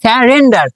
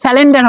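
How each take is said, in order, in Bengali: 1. মাঝের ব্যঞ্জনটি একটি r ধ্বনি। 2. মাঝের ব্যঞ্জনটি একটি l ধ্বনি। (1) "এটা হবে স্যারেন্ডার" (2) "এটা স্যালেন্ডার হবে না"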